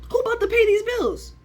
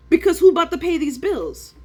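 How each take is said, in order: First: Very high, put-on squeaky voice; mock the question in a cartoon pitch; silly high voice. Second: Loud demand. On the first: Teasing viewers with the bills question, squeaky high voice. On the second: Real, not acted. Trader venting to viewers, loud and pressing. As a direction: raise it high and loud, pressing the question. Ranting about bills.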